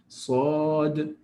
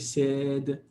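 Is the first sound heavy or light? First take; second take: heavy; light. First: The first sound is heavy and emphatic. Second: The first sound is light and soft. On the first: The speaker calls it right. "by nature this sound is emphatic" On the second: The speaker calls it wrong. "you don't say said. It doesn't work"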